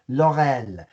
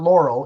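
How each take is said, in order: First: The name is said with a French pronunciation. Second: The name is said with an English pronunciation. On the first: The speaker calls it right. "That is how you pronounce her name in French" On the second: The speaker calls it wrong. "it's not"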